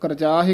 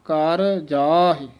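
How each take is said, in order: First: The two words run together as one. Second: The two words are kept separate. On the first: The speaker calls it wrong. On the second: The speaker calls it right.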